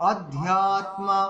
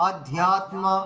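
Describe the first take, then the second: The two takes are said the same way.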